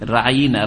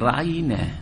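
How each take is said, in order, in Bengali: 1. শব্দটি নাক দিয়ে চাপ দিয়ে বলা হয়েছে। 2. শব্দটি নাকের চাপ ছাড়া বলা হয়েছে।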